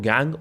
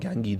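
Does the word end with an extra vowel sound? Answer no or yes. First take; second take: no; yes. First: The word ends on a consonant sound. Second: The word ends with an added 'ee' vowel. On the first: "इसको गैंग और गैंगी दोनों pronounce कर सकते हैं" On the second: "इसको गैंग और गैंगी दोनों pronounce कर सकते हैं"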